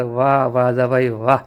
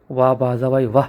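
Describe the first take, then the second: First: Low, slow, sly admiring drawl; mock praise. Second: Mock praise. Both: A narrator's reading. Mainavati slyly praising Baljabai's poison plan, in a low mocking tone. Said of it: "Baljabai चांगलीच खुश होते".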